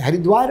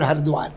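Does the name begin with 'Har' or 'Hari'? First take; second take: Hari; Har. First: The name begins with the two syllables 'Hari'. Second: The name begins with the single syllable 'Har'. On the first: The name refers to Vishnu. "हरि Vishnu का रूप है" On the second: The name refers to Shiva. "हर शिव के लिए कहा जाता है"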